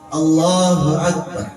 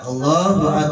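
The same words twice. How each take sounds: First: The phrase is stretched out slowly. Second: The phrase is said very briefly. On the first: "Ada orang yang ucapin begini" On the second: "Ada yang sebentar"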